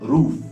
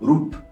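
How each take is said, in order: First: The word ends with an f sound. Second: The word ends with a p sound. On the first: The speaker calls it right. "you're pronouncing roof" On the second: The speaker calls it wrong. "They are pronouncing p, roop, which is wrong"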